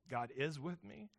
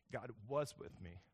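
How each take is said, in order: First: "is" gets the weight, rest plain; stress on is. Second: "was" pressed, then the voice drops; stress on was. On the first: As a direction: lean on "is" in "God is with me". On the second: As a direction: lean on "was", ending in a falling tone. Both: Shown as a demonstration.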